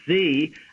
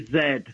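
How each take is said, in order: First: The letter is pronounced as zee. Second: The letter is pronounced as zed. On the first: "this is the only country that says Z" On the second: "the rest of the world, including our northern neighbors, say Z"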